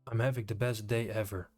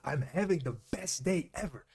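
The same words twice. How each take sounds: First: It is said flatly, without emotion. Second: It is said with heightened, excited emotion.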